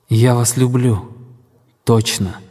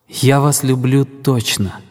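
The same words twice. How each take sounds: First: A short pause comes before the last word. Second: It is said without a pause before the last word.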